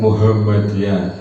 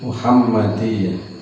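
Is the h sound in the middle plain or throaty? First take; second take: plain; throaty. First: The h is a plain, light h sound. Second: The h is a throaty, pharyngeal h sound. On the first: The speaker calls it wrong. "bukan Muhammadiyah" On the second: The speaker calls it right. "yang betul itu adalah Muhammadiyah"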